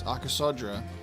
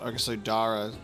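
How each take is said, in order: First: The name has no vowel before the r. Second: The name has an extra vowel before the r. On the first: The speaker calls it right. "you remove one of those letters" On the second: The speaker calls it wrong. "so it's not Oxodara"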